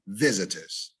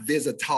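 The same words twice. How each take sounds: First: VISITORS as VIZ-i-terz, weak ending; simple ending. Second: VISITORS as viz-i-TAHZ; overdone ending. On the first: Teacher correcting church speakers, simple ending. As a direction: say visitors with an unstressed -ters. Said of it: "It's just simply visitors". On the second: Teacher showing the church error, overdone ending. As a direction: open the end of visitors into TAHZ. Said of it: "it's not visitors". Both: Shown as a demonstration.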